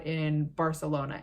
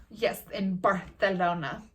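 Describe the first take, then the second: First: Said in the usual way. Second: Slow, affected "Barcelona" with a th for the c; pretentious mock-Castilian "Barcelona", said Bar-the-lona; mock Castilian lisp. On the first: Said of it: "people who are from Barcelona". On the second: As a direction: show off a Spanish "th" in "Barcelona". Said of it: "say Barcelona like that".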